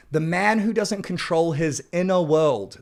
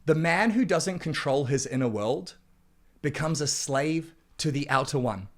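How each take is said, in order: First: "man" hit harder, a bit louder; louder emphatic repeat. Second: Said in the usual way. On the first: Acted. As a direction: punch the repeat so it lands.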